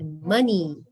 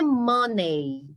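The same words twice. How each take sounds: First: The final vowel is an 'ee' sound. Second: The final vowel is an 'ay' sound. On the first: The speaker calls it right. "é money ... O som do E Y vai ser um som de I" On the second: The speaker calls it wrong. "Não é money"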